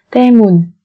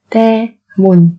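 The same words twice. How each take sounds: First: Said in the usual way. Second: Slow, separated syllables for learners; careful teacher's slow model. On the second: Shown as a demonstration. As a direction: spell it out slowly, beat by beat.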